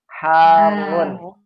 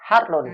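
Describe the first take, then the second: First: The middle sound is held long. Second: The middle sound is short, not held. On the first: The speaker calls it right. "Makanya kita bacanya panjangin dulu" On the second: The speaker calls it wrong. "bukan Harun"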